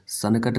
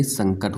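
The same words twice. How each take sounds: First: सनकट as "san-a-kat"; a full n and extra vowel in सनकट; wrong split form. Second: संकट as "sang-kat"; correct nasal form. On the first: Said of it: "नहीं". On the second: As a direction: run the nasal straight into k in संकट. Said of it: "होता है". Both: Shown as a demonstration.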